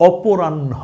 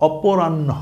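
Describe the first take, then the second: The two takes are said the same way.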